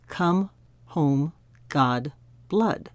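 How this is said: It is said in an American accent.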